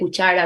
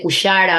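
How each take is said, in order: First: The middle consonant is a sharp ch sound. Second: The middle consonant is a soft sh sound. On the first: The standard pronunciation. "en vez de" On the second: A pronunciation influenced by Guarani. "tienen el sonido de sh"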